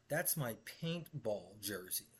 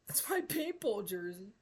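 First: Lightly voiced boss, slow and flat; a hint of the smug boss. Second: Much higher, mocking whiny boss voice. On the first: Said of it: "He says". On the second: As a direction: mimic him to make him sound silly. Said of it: "He tells me".

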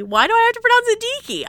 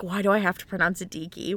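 First: Much higher, raised-voice protest; mock exasperation. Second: Said in the usual way. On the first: Reader replaying their own puzzlement over a name, mock exasperated. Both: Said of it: "and I was like".

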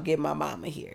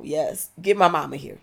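First: Said in the usual way. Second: Insistent louder. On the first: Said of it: "it's like". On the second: Real, not acted. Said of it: "You know".

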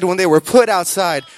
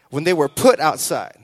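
First: When they were PUT outside, put hit harder and louder; stress on put. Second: Said in the usual way. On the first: Shown as a demonstration. Preacher repeating the line to congregation, stress on put. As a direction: lean hard on put to drive the point home. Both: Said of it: "I said when they were put outside".

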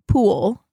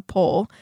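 First: "pool" with an oo-like vowel, meant as pole; mispronounced pole. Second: Said in the usual way. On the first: Real, not acted. Trying to name the playground pole, mispronounced as "pool". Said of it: "Why can't I say that". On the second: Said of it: "Like, a P O L E".

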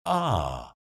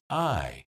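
First: Southern vowel, "ah" in place of "eye"; Southern long I. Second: Said in the usual way. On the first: Shown as a demonstration. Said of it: "sounds more like ah". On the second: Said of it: "pronounced I".

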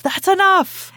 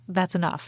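First: Much higher, louder shouted order; acted shout. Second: Said in the usual way. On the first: Podcaster as Hux stopping the firing, shouting. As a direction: yell it to halt the firing.

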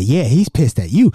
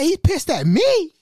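First: Louder, matter-of-fact confirmation, leaning on "you"; retold answer with "you" punched; emphatic confirmation. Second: High, drawn-out disbelief on "me"; slow, high-pitched "who, me?" reaction; acted-out shocked question; incredulous echo. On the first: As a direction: land firmly on "you". Friend confirms the man's anger.

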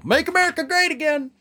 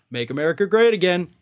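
First: A higher mock Trump slogan, dragged out on great; mock Trump sign-off. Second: Fast, sing-song tag on great; jingle-like Trump slogan. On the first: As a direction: ham up his closing catchphrase. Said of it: "I love how he always sounds off with that". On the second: Retold or imitated. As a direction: rattle it off like a jingle. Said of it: "it's a little jingle he has to do".

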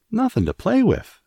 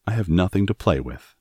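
First: High, loud, incredulous echo; astonished exclamation. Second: Said in the usual way. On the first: A narrator's reading. Martha echoing Mary's complaint, exclaimed in astonishment. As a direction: exclaim it in high-pitched disbelief. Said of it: "exclaimed Martha".

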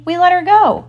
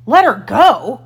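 First: High, breezy deckhand reply; offhand pirate answer, high and loud; casual. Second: Loud, raised captain's outburst; outraged echo, louder and pitched up; incredulous cry. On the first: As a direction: report it lightly, pitched well up. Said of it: "Smee answered casually". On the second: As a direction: throw the words back in disbelief. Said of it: "cried Hook". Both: A narrator's reading.

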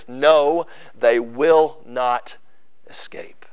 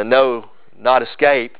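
First: A firm "No", then slow "they will not", and "escape" breathed almost in a whisper; emphatic double negative. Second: Said in the usual way. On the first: Shown as a demonstration. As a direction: press down hard on "not" and let "escape" fall away to a hush. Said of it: "it's emphatic". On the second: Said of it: "In English, we, we can't do that".

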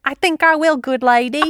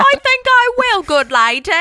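First: Higher, hammed-up mock Cockney; bad Cockney accent. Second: Much higher, louder, cartoonish mock Cockney; over-the-top Cockney. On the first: Trying [name]'s awful Cockney for her co-host, a mock Cockney. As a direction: try the Cockney and fail on purpose. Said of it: "I'ma try it". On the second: Topping her co-host's try, an absurd over-the-top Cockney. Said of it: "What the hell is that?".

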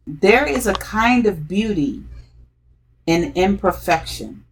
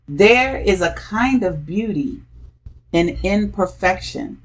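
No difference in how they are said.

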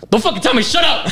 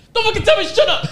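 First: Higher, mocking a friend's angry yell. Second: Much higher, squeaky hammed-up yell; mock angry yell. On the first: Friend mimics classmate snapping at being told to shut up, mock angry yell. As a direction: imitate him snapping back in class. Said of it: "and he'd be like". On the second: From the front row he mimics the classmate's angry yell, much higher. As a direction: ham up his angry shout from the back. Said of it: "so I would just hear like".

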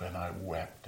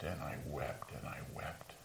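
First: Said in the usual way. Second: Whispered, dropping low and soft; fading whisper. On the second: Acted. Peter, grieving his denial, whispers softly. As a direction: let the words die away into a whisper.

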